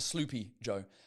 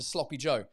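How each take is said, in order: First: The first vowel is a long 'oo' sound. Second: The first vowel is a short 'o' sound. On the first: The speaker calls it wrong. "this is not a sloopy Joe" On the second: The speaker calls it right. "That is a sloppy Joe"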